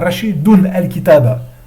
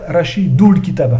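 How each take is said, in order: First: The nun is kept, then a separate 'al' follows. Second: The nun is dropped and runs into 'l'. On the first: "il faut pas dire" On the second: "il ne faut pas dire"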